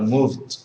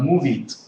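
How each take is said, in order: First: It is said as one syllable ending in d. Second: It is said as two syllables with an extra vowel. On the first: The speaker calls it right. "but moved" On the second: The speaker calls it wrong. "and not move it"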